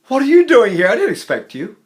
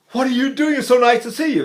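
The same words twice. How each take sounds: First: High, loud burst of delighted surprise; happy surprise. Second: High, delighted greeting after a gasp; gasp, then greet an unexpected friend; happy gasp. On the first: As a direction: exclaim as if someone turned up unexpectedly. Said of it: "the happy surprise is one of the old". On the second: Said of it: "Or the happy gasp". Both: Shown as a demonstration.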